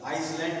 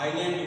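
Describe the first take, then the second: First: The word is said with an s sound. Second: The word is said without an s sound. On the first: The speaker calls it wrong. "आइसलैंड नहीं बोला जाता" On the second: The speaker calls it right. "आइलैंड उसको बोला जाता है"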